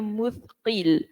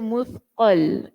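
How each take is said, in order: First: The vowel before the final L is i. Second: The vowel before the final L is a. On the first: "mengkasrahkan dibaca baris bawah huruf qaf. Jadi bunyinya muthqil" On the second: "boleh juga memfathahkannya atau boleh kita baca muthqal"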